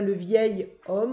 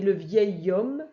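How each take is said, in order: First: The words are said separately without a liaison. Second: The consonant links smoothly into the next word. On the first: The speaker calls it wrong. "on ne dit pas le vieil homme" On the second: The speaker calls it right. "alors là on fait la liaison, on dit le vieil homme"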